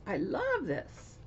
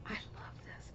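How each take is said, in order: First: Said in the usual way. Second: Breathy whisper, almost unvoiced; hushed private whisper of delight. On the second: Real, not acted. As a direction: murmur it to yourself. Whispered aside before voiced take.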